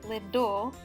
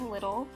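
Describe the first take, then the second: First: The middle has a Chicago D sound. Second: The middle has a standard T sound.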